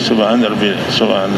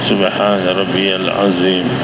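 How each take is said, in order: First: The phrase is rushed and said quickly. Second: The phrase is said slowly and calmly. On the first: The prayer is being done as a formality. The speaker calls it wrong. "वो भी जल्दी नहीं" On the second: The prayer is said sincerely to please God. The speaker calls it right. "इत्मीनान से कहें"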